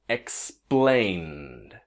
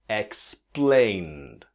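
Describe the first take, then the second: Both takes have the same delivery.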